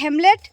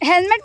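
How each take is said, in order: First: The m comes before the l. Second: The l comes before the m. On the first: The speaker calls it wrong. "উল্টে দিয়ে বলে হেমলেট" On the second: The speaker calls it right. "ও হেলমেট বলতে পারে না"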